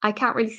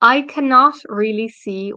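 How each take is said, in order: First: Cannot is shortened to one syllable. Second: The word cannot is said fully.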